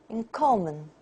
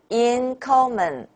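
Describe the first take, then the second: First: One syllable stands out over weak ones. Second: All syllables are said with even strength. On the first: The speaker calls it right. "we say in common" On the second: The speaker calls it wrong. "Do not say in common"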